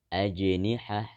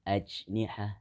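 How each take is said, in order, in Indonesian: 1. Huruf j dilepaskan dengan pantulan bergema yang singkat. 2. Huruf j ditahan tanpa pantulan bergema.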